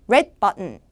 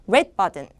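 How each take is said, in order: No difference in how they are said.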